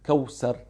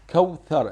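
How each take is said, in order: First: The middle consonant is an s sound. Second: The middle consonant is a th sound. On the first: The speaker calls it wrong. "It is not Kawsar" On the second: The speaker calls it right. "It is Kawthar. It is Tha"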